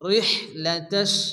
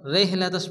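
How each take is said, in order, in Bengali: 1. h হলো একটি জোরালো, শ্বাসযুক্ত গলার ধ্বনি। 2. h হলো একটি হালকা, সাধারণ h ধ্বনি। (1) "মুখ দিয়ে বাতাস বার হবে" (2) "অনেকে আছে এখানে ছোট হা পড়ে রেহ লাতাশ পড়ে রে হবে না"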